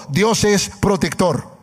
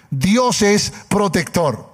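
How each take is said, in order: Both takes have the same delivery.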